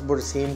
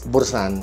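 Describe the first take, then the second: First: The last syllable ends with an 'in' sound. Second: The last syllable ends with an 'an' sound. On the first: Some other people say it this way. The speaker calls it wrong. "Some pronounce it as bursin" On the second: The speaker believes this is how it is said. The speaker calls it right. "but I think it's pronounced as bursan"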